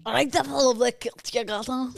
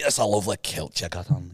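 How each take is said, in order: First: High, eager Scottish mimicry; parroted Scottish accent. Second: Low Scottish lilt; Scottish accent. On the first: Co-host mimics host's line, Scottish accent. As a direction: copy the Scottish accent wholeheartedly. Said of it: "Full on mimic everything you do". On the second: Shown as a demonstration. Host gives line to copy, Scottish accent. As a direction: demonstrate a thicker Scottish accent. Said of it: "They do Scot-, Scottish accent".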